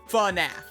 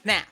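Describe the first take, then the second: First: The word is said slowly, not run together. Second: The word is said quickly, run together. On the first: The speaker calls it right. "I've always pronounced it FNAF" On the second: The speaker calls it wrong. "just straight into it with FNAF. Like, in a real quick interval"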